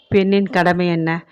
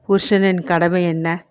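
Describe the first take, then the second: First: பெண்ணின் lifted and held as the key word; stress on woman. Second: புருஷனின் lifted and held as the key word; stress on husband. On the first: Narrator poses the woman's duty question, stressing பெண்ணின். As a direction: lean on பெண்ணின், then ask the rest lightly. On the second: Narrator poses the husband's duty question, stressing புருஷனின். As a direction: lean on புருஷனின், then ask the rest lightly. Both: A narrator's reading.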